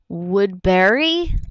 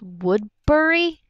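First: The ending sounds like the word berry. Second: The ending does not sound like berry. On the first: "Like a berry, like a strawberry" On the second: "I actually started pronouncing it as Woodbury"

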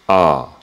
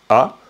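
First: The vowel is said at a low pitch. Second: The vowel is short, clear and sharp. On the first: "un son bas" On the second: "un son net, clair, sec"

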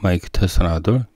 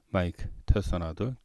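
First: The voice is recorded at a higher level. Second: The voice is recorded at a lower level. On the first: "다시 하이로" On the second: "이번에 로우입니다"

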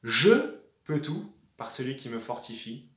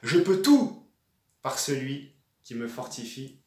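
First: The stress falls on the word "je". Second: The stress falls on the word "tout". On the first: It is I who can do all things. "si on appuie sur le premier mot" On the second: It is all things that can be done. "j'ai appuyé sur « tout »"

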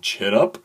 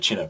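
First: The name is said with lively, enthusiastic energy. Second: The name is said with flat, low energy.

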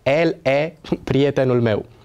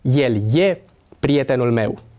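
First: El and e begin with a plain e vowel. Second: El and e begin with a y glide. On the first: The speaker calls it wrong. "Sună chiar comic să pronunțăm" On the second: The speaker calls it right. "Pronunțăm"

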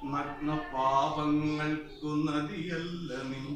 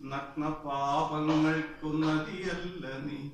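No difference in how they are said.

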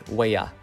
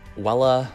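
First: The double L is said as a Y sound. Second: The double L is said as an L sound. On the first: The speaker calls it right. "double L's make a Y sound" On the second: The speaker calls it wrong. "not huella"

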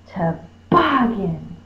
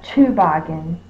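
First: The stress is on the second syllable. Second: The stress is on the first syllable. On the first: The speaker calls it right. "So bog is going to be my stressed syllable" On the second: The speaker calls it wrong. "not to. It's not Toboggan"

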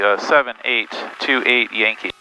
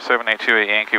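First: The call sign is said slowly. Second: The call sign is said quickly. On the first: The speaker calls it right. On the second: The speaker calls it wrong.

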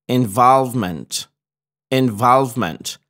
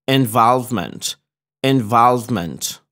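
Both takes have the same delivery.

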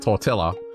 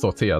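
First: Tortilla is said with an Australian English pronunciation. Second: Tortilla is said with a Spanish pronunciation. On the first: The speaker calls it wrong. "we live in Australia, mate, and we say tortilla" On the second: The speaker calls it right. "it's pronounced tortilla. That's how you say it in Spanish"

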